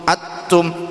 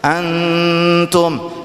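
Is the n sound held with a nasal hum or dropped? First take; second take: dropped; held. First: The n is dropped with no nasal hum. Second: The n is held with a nasal hum. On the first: The speaker calls it wrong. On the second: The speaker calls it right.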